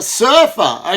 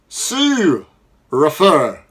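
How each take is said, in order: First: The ur is said as one sound. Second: The u and r are split into separate sounds. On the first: The speaker calls it right. "we don't split uh, this R controlled vowel either" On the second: The speaker calls it wrong. "we wouldn't turn around and say Sue refer. Doesn't make sense"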